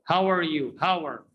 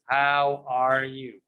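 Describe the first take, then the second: First: "How are" run together like "hower"; "are" shrunk to an R on the end of "How"; linked reduced are. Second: "How are you" slow, word by word, full "are"; "How, are, you" evenly stretched out; wrong unlinked version. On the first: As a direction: say "How are" as one word. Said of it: "No, it's not correct". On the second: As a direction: draw out "are" as its own word. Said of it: "it's not pronounced". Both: Shown as a demonstration.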